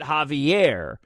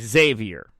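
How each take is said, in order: First: The name is pronounced as Javier. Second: The name is pronounced as Xavier. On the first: The speaker calls it wrong. "I pronounced it Javier" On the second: The speaker calls it right. "but his name is actually Xavier"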